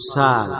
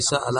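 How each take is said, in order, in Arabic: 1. الصوت الأوسط ألف مدّ طويلة. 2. الصوت الأوسط همزة كاملة.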